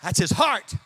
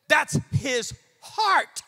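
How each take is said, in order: First: Said in the usual way. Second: THAT'S, HIS and HEART set apart, HEART lifted; very slow, weighty delivery with a pause before HEART; slow emphasis. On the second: Real, not acted. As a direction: say it word by word, stretching HEART upward. Repeats it slowly for weight.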